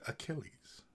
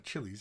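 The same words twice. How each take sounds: First: The middle consonant sounds like 'k'. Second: The middle consonant sounds like 'ch'. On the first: The speaker calls it right. "it's Achilles" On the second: The speaker calls it wrong. "It's not Achilles"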